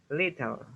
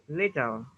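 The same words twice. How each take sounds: The two takes are said the same way.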